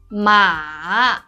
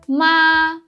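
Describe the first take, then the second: First: The pitch falls first and then rises. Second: The pitch stays high and level. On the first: It means horse. "It's a falling, rising tone" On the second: It means mother. "it's high and flat"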